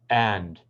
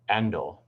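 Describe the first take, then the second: First: The word ends cleanly on the consonant. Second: An extra vowel is added after the consonant. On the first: The speaker calls it right. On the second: The speaker calls it wrong.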